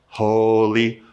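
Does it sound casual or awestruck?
casual. It is said in a flat, casual way.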